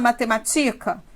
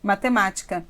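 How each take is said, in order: First: The stress is on the second-to-last syllable. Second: The stress is on the third-to-last syllable. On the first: The speaker calls it wrong. "Não. Então, a tonicidade não é aqui" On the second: The speaker calls it right. "quando cai aqui, essa palavra necessariamente é uma proparoxítona"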